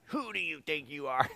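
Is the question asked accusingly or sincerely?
accusingly. It is asked as a scornful, accusing challenge.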